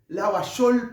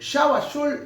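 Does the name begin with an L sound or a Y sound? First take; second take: L sound; Y sound. First: The name begins with an L sound. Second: The name begins with a Y sound.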